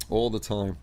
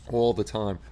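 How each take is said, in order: Both takes have the same delivery.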